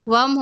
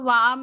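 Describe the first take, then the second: First: The first vowel is kept short. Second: The first vowel is drawn out long. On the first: The speaker calls it right. "वम होगा" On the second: The speaker calls it wrong. "वाम नहीं होगा"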